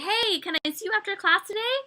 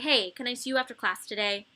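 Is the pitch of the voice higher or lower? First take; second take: higher; lower. First: The question is said with a normal, higher pitch. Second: The question is said with a dropped, lower pitch. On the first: "if I say it that way" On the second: "And I drop my tone that way"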